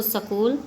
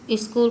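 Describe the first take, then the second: First: स्कूल split as sa-kool; Punjabi pronunciation. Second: Said in the usual way. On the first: Shown as a demonstration. Teacher showing how Punjabis say it, sa-kool for स्कूल. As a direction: put a short a between s and k in स्कूल. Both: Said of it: "Punjabi भाषी".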